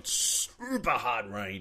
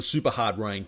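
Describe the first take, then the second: First: "Super" stretched out very slowly, softer; drawn-out SUPER. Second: Said in the usual way. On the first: Real, not acted. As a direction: drag out the word "Super" for comic emphasis. Playful drawn-out repeat for emphasis.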